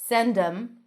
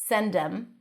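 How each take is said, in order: Both takes have the same delivery.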